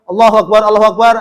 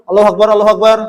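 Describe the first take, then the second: Both takes have the same delivery.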